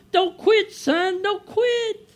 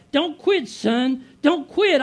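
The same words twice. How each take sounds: First: Much higher, pleading mother's voice; high, gentle mom cheering her son on. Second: A hint of a father calling out, higher and louder; father's urging. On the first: Retold or imitated. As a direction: sound like his mother calling from heaven. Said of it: "I hear my mom". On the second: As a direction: urge him on like his late father would. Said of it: "I hear my dad".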